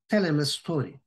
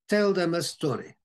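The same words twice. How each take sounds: First: The word 'them' is reduced to a short form. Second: The word 'them' is said in full.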